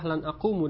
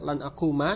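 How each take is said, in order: First: The last word ends in a u vowel. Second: The last word ends in an a vowel. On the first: The speaker calls it wrong. "lan akumu dengan dhammah" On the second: The speaker calls it right. "lan akuma dengan fathah"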